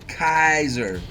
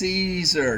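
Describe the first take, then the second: First: The name begins with a hard k sound. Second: The name begins with a soft s sound. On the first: The speaker calls it wrong. "not Kaiser" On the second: The speaker calls it right. "it's pronounced Caesar"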